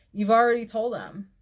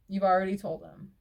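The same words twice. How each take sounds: First: "already" hit hard and louder; emphatic insistence. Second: Said in the usual way. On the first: Real, not acted. Advising the poster she already told him, loud stress on "already". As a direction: drive home "already" forcefully. First, forceful take of repeated line.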